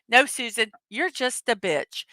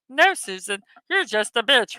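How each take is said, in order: First: It is said in the speaker's own voice. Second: It is said in a Kermit the Frog voice.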